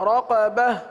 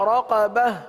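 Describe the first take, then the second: Both takes have the same delivery.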